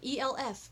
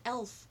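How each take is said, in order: First: Each letter is said separately. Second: It is said as one single word. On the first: It is treated as an abbreviation. "I've said it E L F my entire life because it's an abbreviation" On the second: This is how most other people say it. "but everybody calls it E L F"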